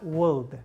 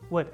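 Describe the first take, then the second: First: The word is said with an L sound. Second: The word is said with no L sound. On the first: The speaker calls it wrong. "not would" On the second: The speaker calls it right. "The O is silent"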